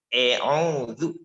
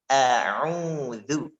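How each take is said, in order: First: The first vowel sounds like e. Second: The first vowel is a clear open a. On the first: The speaker calls it wrong. "Bukan juga e'udzu" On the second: The speaker calls it right. "Tapi a'udzu"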